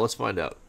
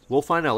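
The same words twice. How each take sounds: First: Said in the usual way. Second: Eager, loud, upbeat; can't wait to see; excited. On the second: Real, not acted. Eager to see what happens.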